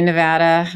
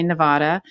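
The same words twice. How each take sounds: First: Nevada with the middle a as in "cat"; co-host's pronunciation. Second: Nevada with an open "ah" in the middle; Californian pronunciation. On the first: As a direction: say Nevada as "nuh-VAD-uh". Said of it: "I know you say Nevada". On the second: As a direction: say Nevada as "nuh-VAH-duh". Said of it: "in California we say Nevada". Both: Shown as a demonstration.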